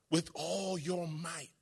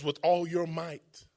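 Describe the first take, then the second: First: Much softer, slow echo; slow, hushed repeat of the phrase. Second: Said in the usual way. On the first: Shown as a demonstration. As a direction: drop the voice to almost nothing. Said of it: "repeated much softer". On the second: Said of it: "repeats it differently".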